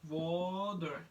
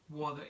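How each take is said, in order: First: The middle T sounds like a soft D. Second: The middle T is a crisp, clear T. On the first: The speaker calls it right. "it pronounced like D" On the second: The speaker calls it wrong. "you probably say water"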